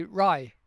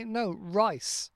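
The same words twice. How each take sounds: First: "rye" with the final S sound of rice cut off; dropped ending. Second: "rice" with the final S sound said clearly; full ending. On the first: Retold or imitated. Imitating students who cut the end off rice. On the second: Shown as a demonstration. Correcting a student, sounding the end of rice. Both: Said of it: "they drop the end bit off".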